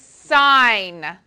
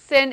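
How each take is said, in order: First: The vowel is long, rhyming with pine. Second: The vowel is short, rhyming with pin. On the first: The speaker calls it right. "it is sine" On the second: The speaker calls it wrong. "It is not sin"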